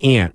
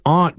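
First: It is said with a general American accent. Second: It is said with a Boston accent.

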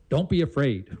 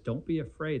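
First: It sounds like a stern command. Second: It sounds warm and reassuring.

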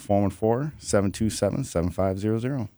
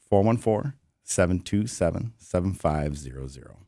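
First: The number is said at normal speed. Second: The number is said more slowly.

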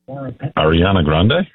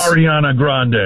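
First: It is said hesitantly, without confidence. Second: It is said firmly, with confidence.

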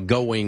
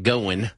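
First: It is said in a neutral broadcast accent. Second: It is said in a country Kentucky accent.

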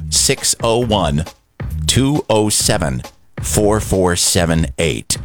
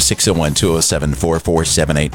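First: The number is read at a slow pace. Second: The number is read at a quick pace.

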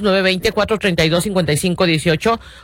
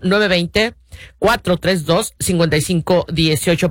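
First: The number is said at normal speed. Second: The number is said more slowly.

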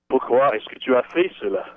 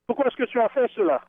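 First: It is said in a crabby tone. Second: It is said in a neutral tone.

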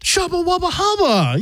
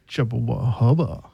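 First: It is said in a supportive tone. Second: It is said in a flirty tone.

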